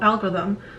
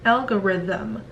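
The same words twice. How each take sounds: First: One or more syllables of the word are dropped. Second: Every syllable of the word is fully pronounced. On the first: The speaker calls it wrong. "if you were to skip one or two syllables" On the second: The speaker calls it right. "So fully pronounce each syllable"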